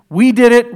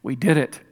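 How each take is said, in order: First: Louder and higher, bragging; boastful shout. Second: Said in the usual way. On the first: Retold or imitated. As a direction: crow it out like the victors. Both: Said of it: "You're gonna go".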